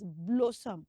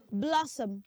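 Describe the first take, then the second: First: "Blossom" said BLOW-som, long o; wrong pronunciation. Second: "Blossom" with short open o, BLOSS-um; correct pronunciation. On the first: Teacher showing what not to say, mispronounced "Blossom". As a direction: make the first syllable of "Blossom" blow. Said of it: "not rightly pronounced as Blossom". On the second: Teacher saying it for children to echo, correct "Blossom". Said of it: "Say after me". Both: Shown as a demonstration.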